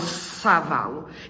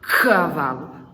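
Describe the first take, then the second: First: The word begins with an s sound. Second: The word begins with a k sound. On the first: The speaker calls it wrong. "eu não falo savalo" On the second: The speaker calls it right. "eu falo c, cavalo"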